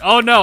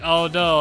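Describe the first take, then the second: First: It is said in a genuinely alarmed tone. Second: It is said in a mocking, sarcastic tone. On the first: The danger has really happened. "I actually got ambushed" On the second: The danger is not taken seriously. "I was gonna be sarcastic"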